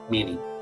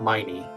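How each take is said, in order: First: The first vowel sounds like 'ee'. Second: The first vowel sounds like 'eye'. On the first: The speaker calls it right. "Gotta remember that" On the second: The speaker calls it wrong. "Not miney"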